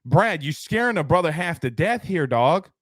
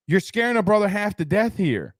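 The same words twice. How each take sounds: First: Said in the usual way. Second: Higher, mock-frightened whine; mock scared. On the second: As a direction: play up being spooked. Repeats the line more shrilly.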